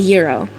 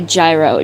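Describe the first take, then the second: First: It is said the traditional way, sounding like hero. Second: It is said the American way, sounding like gyro. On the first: The speaker calls it right. "It's a hero" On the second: The speaker calls it wrong. "I am like strictly American. So I say gyro just to be irritating"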